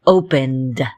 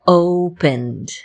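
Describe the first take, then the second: First: Opened, lower, final D marked; Opened with final D stressed. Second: Opened, the final D plainly voiced; Opened with a clear final D. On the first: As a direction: land on the D at the end of Opened. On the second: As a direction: let the D ring at the end of Opened. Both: Shown as a demonstration. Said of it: "Do you hear the D at the end there?".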